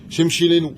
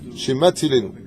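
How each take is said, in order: First: The middle consonant is a 'sh' sound. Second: The middle consonant is a 'ts' sound. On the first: The speaker calls it wrong. "ils ont une prononciation ... ils disent, Shimshilenu" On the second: The speaker calls it right. "Ça ne veut absolument rien dire"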